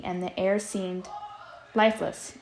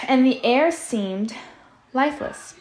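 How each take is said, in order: First: Said in the usual way. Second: "air seemed lifeless" said louder over noise; louder reread. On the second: Shown as a demonstration. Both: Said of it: "And Sal is making a lot of noise".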